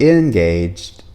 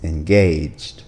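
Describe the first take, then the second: First: The middle vowel is a short A sound. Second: The middle vowel is a long A sound. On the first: The speaker calls it wrong. "It's not engaged" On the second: The speaker calls it right. "it's engaged"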